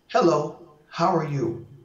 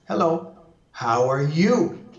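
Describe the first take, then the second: First: It is said flat, with no word stressed. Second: The last word carries the strong stress. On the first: "That's just monotone" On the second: "I'm now going to accentuate the last one"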